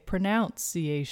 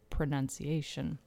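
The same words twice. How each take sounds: First: The second syllable sounds like in 'pronounce'. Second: The second syllable sounds unlike in 'pronounce'. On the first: The speaker calls it wrong. "a lot of people say pronunciation. They'll put the O in the same way you would say pronounce" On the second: The speaker calls it right. "but when you say pronunciation"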